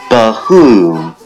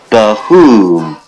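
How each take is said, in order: Both takes have the same delivery.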